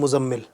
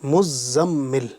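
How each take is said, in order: First: The z and m sounds are short, not doubled. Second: The z and m sounds are held long, doubled. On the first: The speaker calls it wrong. "कुछ लोग इसको बोलते हैं" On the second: The speaker calls it right. "ज़ा और मीम दोनों पर तशदीद है"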